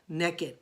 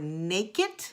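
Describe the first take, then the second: First: The first vowel is a short 'e' sound. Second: The first vowel is a long 'ay' sound. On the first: "But I say naked, like neck" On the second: "I have to really take my time and really move my mouth to pronounce the word"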